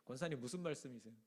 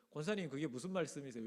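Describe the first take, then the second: First: Calmly and softly, 권사님 said gently and low. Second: Said in the usual way. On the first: Shown as a demonstration. (침착하게 낮추어 "권사님, 무슨 말씀이세요?") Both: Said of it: "침착하게".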